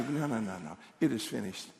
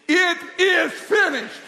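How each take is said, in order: First: Low, soft self-reminder; quiet declaration. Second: Slow, high, booming proclamation; loud declaration. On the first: Answering the comparison game, quiet low declaration. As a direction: say it softly to steady yourself. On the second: Preacher answering hostile circumstances, loud slow declaration. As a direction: shout each word slowly in defiance. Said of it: "we need to speak it out loud". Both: Shown as a demonstration.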